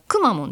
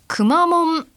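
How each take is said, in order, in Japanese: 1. 最初のモーラが高いです。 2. 単語全体で平板です。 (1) "くだからくまモンですね、くにイントネーションを置いたくまモン" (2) "こう平板という、アクセントですね"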